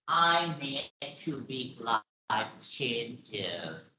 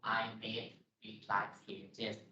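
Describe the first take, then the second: First: The pitch varies and falls at the end. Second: The pitch stays flat and monotone throughout.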